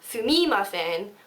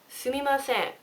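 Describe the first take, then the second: First: It is said with a foreign accent. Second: It is said with a Japanese accent. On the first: The speaker calls it wrong. "it's not sumimasen" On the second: The speaker calls it right. "It's sumimasen"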